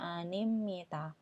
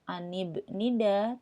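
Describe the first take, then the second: First: It has an m sound before ni. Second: It has a clear b sound before ni. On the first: This is how the word is actually read. The speaker calls it right. "tapi dibacanya" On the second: This follows the written spelling. The speaker calls it wrong.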